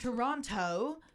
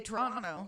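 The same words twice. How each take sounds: First: The second T is clearly pronounced. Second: The second T is dropped. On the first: The speaker is not from Toronto. The speaker calls it wrong. "you know the actor is American because they say something like" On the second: The speaker is from Toronto. The speaker calls it right. "if you were from Toronto, you'd say"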